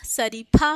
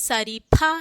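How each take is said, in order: The two takes are said the same way.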